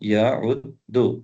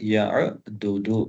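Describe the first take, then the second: First: The two d sounds merge into one doubled consonant. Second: The two d sounds are split by a vowel. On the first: This is the form in normal use. "யஉத்துல அ இங்க ஷத்தா இருக்கு" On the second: This is the underlying original form. "யஉத்துடைய அஸ்ல் என்னன்னு கேட்டா"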